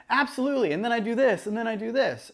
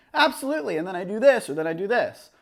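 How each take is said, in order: First: Interviewee off camera. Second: Talking to camera. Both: Shown as a demonstration. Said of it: "It's just different than if I were to be like".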